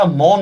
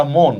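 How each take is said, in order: First: মন with an open "aw" vowel, "mawn"; wrong open vowel. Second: মন with a rounded closed "o", "mone"; exception's closed vowel. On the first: Teacher showing students the wrong reading, মন with open "aw". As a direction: say মন as "mawn", the form to reject. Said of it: "এটা মন না, এটা মন". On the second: Teacher showing students the exception, মন with closed "o". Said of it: "মানুষের মন তো কোনো নিয়মে মানে না". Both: Shown as a demonstration.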